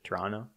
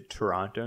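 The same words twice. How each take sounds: First: The second t sound is dropped. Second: The second t sound is clearly pronounced. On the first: This is how locals say it. "You don't pronounce the T" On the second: The speaker is not from the city. "Notice I'm not from Toronto, so I say Toronto"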